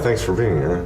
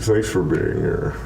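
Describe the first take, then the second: First: It is said in a natural speaking voice. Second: It is said in a creepy put-on character voice.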